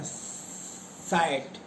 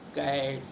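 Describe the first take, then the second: First: The word begins with an s sound. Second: The word begins with a k sound. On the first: The speaker calls it wrong. "ये उच्चारण गलत हो जाएगा" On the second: The speaker calls it right. "का से"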